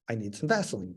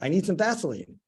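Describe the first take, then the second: First: It is said at a normal, quieter volume. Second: It is said noticeably louder.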